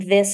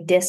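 First: The word begins with a soft 'th' sound. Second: The word begins with a hard 'd' sound. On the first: "instead of saying this" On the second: "The D for TH"

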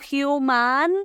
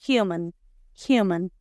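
First: The second vowel is an open a. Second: The second vowel is a closed, reduced a. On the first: The speaker calls it wrong. "No human" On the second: The speaker calls it right. "las A en inglés son más cerraditas"

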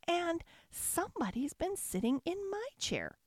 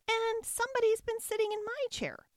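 First: It is said in a medium, ordinary voice. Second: It is said in a high, squeaky voice.

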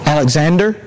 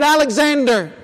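First: It is said a little louder. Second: It is said loudly and clearly.

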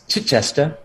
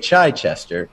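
First: The name is said with a British pronunciation. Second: The name is said with an American pronunciation. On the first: This is how the name is properly said locally. The speaker calls it right. "it's Chichester" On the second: This is how Americans would say it. The speaker calls it wrong. "even though we would say Chichester"

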